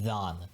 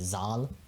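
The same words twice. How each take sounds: First: It begins with a soft th sound. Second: It begins with a buzzing z sound. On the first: The speaker calls it right. "This is like that, the, this" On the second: The speaker calls it wrong. "don't say zal"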